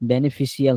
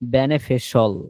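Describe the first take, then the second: First: The ending is two syllables, like 'shee-al'. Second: The ending is one syllable, like 'shol'. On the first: The speaker calls it wrong. "হইব না" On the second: The speaker calls it right. "Not শিয়াল"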